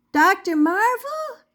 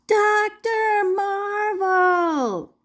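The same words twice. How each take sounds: First: Higher, louder shout for attention. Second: Slow, drawn-out full yell, much higher; yelling at the top of lungs. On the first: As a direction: shout his name across the noisy studio. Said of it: "she shouted". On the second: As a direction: bellow his name over the music. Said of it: "yelled together at the top of their lungs". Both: Acted.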